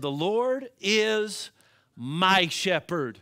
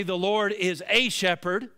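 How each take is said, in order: First: Slow, "my" set apart after a pause and stressed. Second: "a" lifted and stressed in "The Lord is a shepherd". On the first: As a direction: drag it out slowly and land hard on "my". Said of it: "He said". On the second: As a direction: lean on the little word "a", wrong version. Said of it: "Notice David did not say". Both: Shown as a demonstration.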